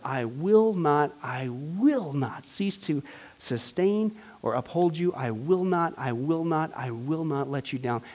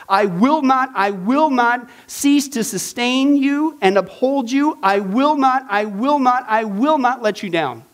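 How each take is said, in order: First: Soft and slow, almost hushed; soft promise. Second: Loud, hammering each I will not; emphatic promise. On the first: Teacher repeating God's promise tenderly to the class, soft and slow. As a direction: let each I will not settle gently. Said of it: "I'm telling you". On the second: Teacher booming God's promise to the class, loud and emphatic. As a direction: pound out every I will not like a vow. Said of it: "Here's literally what it says". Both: Shown as a demonstration.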